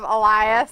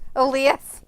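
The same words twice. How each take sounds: First: The name is pronounced in the usual way. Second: The name is pronounced in an odd way. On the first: This is how the name should be said. The speaker calls it right. "instead of Elias" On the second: This imitates how a computer voice said it. The speaker calls it wrong. "A I says his name weird"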